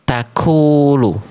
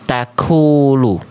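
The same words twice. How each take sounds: First: The k sound has a puff of breath. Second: The same.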